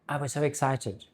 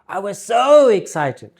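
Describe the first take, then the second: First: It is said flatly, without much feeling. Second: It is said with lively, emotional intonation. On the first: The speaker calls it wrong. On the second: The speaker calls it right.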